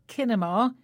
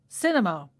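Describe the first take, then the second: First: The word begins with a K sound. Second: The word begins with an S sound. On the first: The speaker calls it wrong. "we don't say kinema" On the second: The speaker calls it right. "it's cinema"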